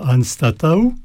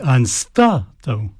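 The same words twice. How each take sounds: First: The stress is not on the second syllable. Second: The stress is on the second syllable, ta. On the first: The speaker calls it wrong. "non pas anstatau" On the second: The speaker calls it right. "l'accent tonique toujours sur l'avant-dernière syllabe"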